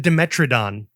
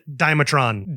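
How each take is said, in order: First: The name is said with four syllables. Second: The name is said with three syllables.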